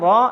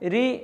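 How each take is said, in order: First: The r is said thick and heavy. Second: The r is said thin and light. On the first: "റാ എന്നുച്ചരിച്ചാൽ തഫ്ഹീമാക്കുക" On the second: "രായുടെ ശബ്ദത്തോട് സാദൃശ്യമായിട്ട് ഉച്ചരിച്ചാൽ തർഖീക്കാക്കുക"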